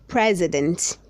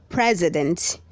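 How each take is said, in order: No difference in how they are said.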